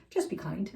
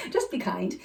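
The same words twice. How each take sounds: First: Said in the usual way. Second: Said through a laugh; amused, laughing repetition. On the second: Real, not acted. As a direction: laugh it out with delight. Repeats answer laughing.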